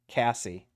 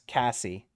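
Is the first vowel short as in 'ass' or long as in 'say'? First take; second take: short; short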